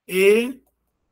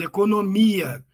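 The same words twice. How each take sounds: First: "Economia" as E, co, no, mi, a, with pauses between; syllable by syllable. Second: Said in the usual way. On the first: Shown as a demonstration. Teacher exposing the hiatus, "Economia" syllable by syllable. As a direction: split "Economia" into five separate beats. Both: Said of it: "separação de vogais em sílabas distintas".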